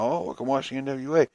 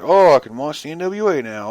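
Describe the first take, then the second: First: The same mock line, softer and trailing off; mock fan, softer. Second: Light, mock-cheerful fan voice. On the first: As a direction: let the mock fan fade out. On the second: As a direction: mimic a fan who shrugs it off. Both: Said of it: "people are just like".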